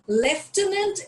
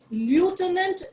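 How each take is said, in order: First: It is said with a British pronunciation. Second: It is said with an American pronunciation. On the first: "Lieutenant is British" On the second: "lieutenant is American"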